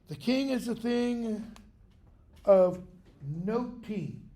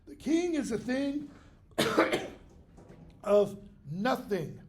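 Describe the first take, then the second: First: Nothing is said with a t sound. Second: Nothing is said with a th sound. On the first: It also means something paid attention to. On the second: It means something worthless.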